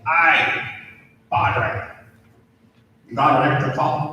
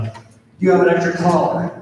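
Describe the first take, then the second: First: Lightly attempted Australian accent, quick at the end; Aussie accent. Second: Said in the usual way. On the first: Australian priest greeting a colleague at the hospital, rough Aussie accent. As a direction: have a go at a mild Australian accent. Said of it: "That's my Aussie accent". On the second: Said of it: "Sounds kinda like the Southern Otter Tail".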